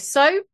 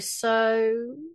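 First: It is short and higher in pitch. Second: It is drawn out with an exploring sound.

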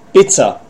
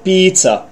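First: It is pronounced the way Czech speakers say it. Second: It is pronounced the standard English way. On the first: The speaker calls it wrong. "he said pizza instead of" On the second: The speaker calls it right. "instead of pizza"

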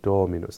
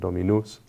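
First: The first syllable is stressed and lengthened. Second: The first syllable is not stressed. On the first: The speaker calls it right. "there's an elongation of the O of Do, because that's where the ancient Latins would have accented that word" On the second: The speaker calls it wrong. "They wouldn't have said"

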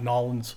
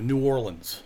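First: The name is squeezed into two quick syllables. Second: The name is said with all its syllables. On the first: The speaker calls it wrong. "It is not Nolens" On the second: The speaker calls it right. "It is New Orleans"

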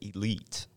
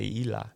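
First: The word ends with a clear t sound. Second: The word ends without a t sound. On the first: "It's spelled Elite" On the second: "we all have a certain Southern way of saying certain things. We say Eli"

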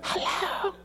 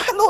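First: It sounds sleepy and unwilling to be bothered. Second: It sounds awake, concerned and ready to help.

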